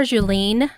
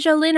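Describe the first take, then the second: First: Jolene said as "joo-LEEN"; long-vowel pronunciation. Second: Jolene said as "joh-LIN"; short-vowel pronunciation. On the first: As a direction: end Jolene like lean, long ee. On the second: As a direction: end Jolene like Lynn, short i. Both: Shown as a demonstration. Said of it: "Lynn or Lean?".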